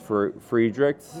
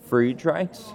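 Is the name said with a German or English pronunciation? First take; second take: English; German. First: The name is said with English pronunciation. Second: The name is said with German pronunciation. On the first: This is the form most people commonly use. "But I think everyone says Friedreich's" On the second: This is the original correct form. "it's German, right? So I think the correct one is probably Friedreich's"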